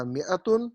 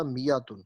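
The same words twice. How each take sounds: First: میاتن as mi-atun, with a catch after mi; hamza kept. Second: میاتن as mi-yatun, with a smooth y glide; hamza turned ya. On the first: Teacher offering the first reading, hamza sounded. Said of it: "دونوں طریقے ٹھیک ہیں". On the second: Teacher offering the second reading, ya in place of hamza. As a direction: glide through میاتن without a catch. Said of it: "تو یہ بن گیا میاتن". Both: Shown as a demonstration.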